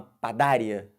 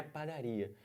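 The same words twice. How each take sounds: First: "padária" with the stress moved onto DÁ; "padária" stressed on the second syllable, "ria" unstressed; wrong stress. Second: Said in the usual way. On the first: Shown as a demonstration. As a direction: say "padária" as pa-DÁ-ria, as a doubting question. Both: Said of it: "Eu falo uma padária?".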